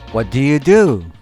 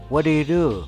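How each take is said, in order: First: It is said slowly and clearly. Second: It is said very fast.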